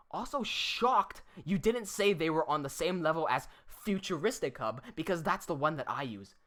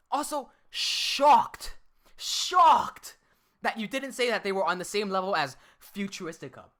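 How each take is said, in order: First: Said in the usual way. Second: Mocking reread. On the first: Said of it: "reads the comment plainly first". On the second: Streamer rereads the rival's comment to mock its wording. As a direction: stretch out "shocked" to ridicule it. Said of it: "the wording he used".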